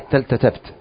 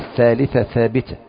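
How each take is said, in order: First: The words are said with a 't' sound. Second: The words are said with a 'th' sound.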